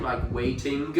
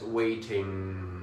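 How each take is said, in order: First: Waiting ending in a hard K, waitink; wrong K ending. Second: Waiting with a soft nasal NG, no K; nasal ng ending. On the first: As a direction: say waiting as if the G were a K. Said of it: "some speakers pronounce that G as if it's ... a K". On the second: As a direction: keep the end of waiting in your nose. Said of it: "keep it in your nose as waiting". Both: Shown as a demonstration.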